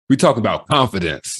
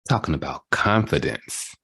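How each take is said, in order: First: It is said strongly, with more force. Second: It is said weakly, without much force.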